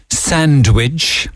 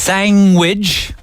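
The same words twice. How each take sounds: First: Said in the usual way. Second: Sandwich said as sangwich, NG in place of ND. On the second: Shown as a demonstration. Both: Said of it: "instead of sandwich".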